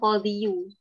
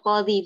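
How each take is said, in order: First: The word ends with an added 'yu' syllable. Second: The word ends on a plain long 'ee' vowel. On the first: The speaker calls it wrong. "bukan qadhiyu" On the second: The speaker calls it right. "tetap qadhi"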